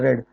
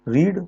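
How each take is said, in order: First: The vowel is short, like 'red'. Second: The vowel is long, like 'reed'. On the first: It is the past form of the verb. "इसकी verb की second form और third form हो जाती है रेड रेड" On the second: It is the present form of the verb. "इसका एक उच्चारण हो जाता है रीड रीड"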